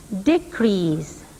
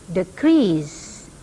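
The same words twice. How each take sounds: First: The stress is on the first syllable. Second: The stress is on the second syllable. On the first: It is used as a noun. "the first syllable of the noun has primary stress" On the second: It is used as a verb.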